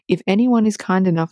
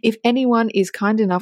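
First: It is said in a put-on announcer voice. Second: It is said in a plain everyday voice. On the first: The speaker calls it right. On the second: The speaker calls it wrong.

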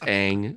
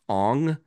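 First: The name is said to rhyme with 'bang'. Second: The name is said to rhyme with 'long'. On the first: The speaker calls it right. "It's always been Aang. That's how the show pronounces it" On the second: The speaker calls it wrong. "if you're going to have the main character pronounced Ong, you've already failed"

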